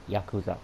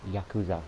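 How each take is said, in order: Both takes have the same delivery.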